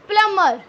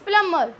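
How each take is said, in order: First: The b sound is silent. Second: The b sound is silent.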